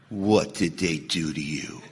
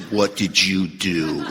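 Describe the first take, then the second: First: Hushed, very low and slow, gravely concerned; mock-serious sponsor. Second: Low, slow, pointed question; confronting sponsor. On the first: Imagined sponsor hearing of a sponsee's anger, low grave concern. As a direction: play the sponsor turning deadly serious, soft and low. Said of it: "he got real serious and went". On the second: Retold or imitated. Sponsor questioning an angry sponsee, slow low challenge. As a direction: turn the blame back, imitating a sponsor, low and deliberate. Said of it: "My sponsor never says that".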